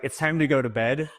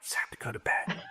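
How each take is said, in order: First: It is said in a normal speaking voice. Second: It is said in a soft whispered voice.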